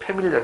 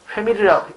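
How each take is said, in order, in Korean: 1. 이 단어는 p 소리로 시작해요. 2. 이 단어는 h 소리로 시작해요. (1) "해야 된다" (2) "하면 안 되고"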